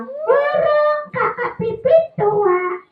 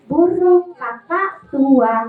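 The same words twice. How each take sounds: First: Sung, high, slow puppet song; puppet singing. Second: Slow sung cue in own voice; sung, lead the line slowly; sung, song demonstration. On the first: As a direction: sing slowly in a high puppet voice. Puppet sings it back wrong. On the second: Presenter models song slowly. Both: Acted.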